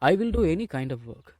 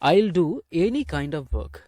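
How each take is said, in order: First: 'I will' is said as two full words. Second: 'I will' is contracted to one syllable. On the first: "ஐ வில் அப்படின்னு உச்சரித்து பேசுங்களேன்" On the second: "ஐல் அப்படின்னு உச்சரிக்கிறதுக்கு கஷ்டமாக இருந்தது"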